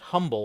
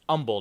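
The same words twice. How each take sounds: First: It is said the common non-local way. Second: It is said the local Texas way. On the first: This is how people elsewhere say the word. The speaker calls it wrong. "not humble like the rest of us do" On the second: This is how locals in Texas say the town name. The speaker calls it right. "if you're in Texas, you know it's pronounced humble"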